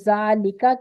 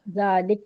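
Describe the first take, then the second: First: The word ends with a short a vowel. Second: The word ends on a bare consonant. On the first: "जबर हटाया" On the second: "साकिन लगा दिया"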